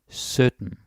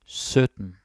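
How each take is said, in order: Both takes have the same delivery.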